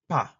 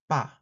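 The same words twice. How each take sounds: First: The first consonant has a strong puff of air. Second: The first consonant is plain and lax. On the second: "Bilabial stop affricate plain"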